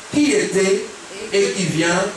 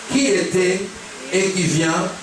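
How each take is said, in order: No difference in how they are said.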